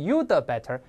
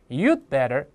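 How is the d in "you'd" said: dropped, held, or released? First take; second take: released; held. First: The d is released as an extra syllable. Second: The d is held silently before better. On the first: The speaker calls it wrong. "也不能you the better" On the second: The speaker calls it right. "这个the 是个失去爆破"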